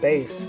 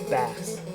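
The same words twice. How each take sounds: First: It is pronounced like the musical term. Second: It is pronounced like the name of the fish. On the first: The speaker calls it right. "just mentioning uh, bass" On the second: The speaker calls it wrong. "commonly uh, mispronounced as uh, bass"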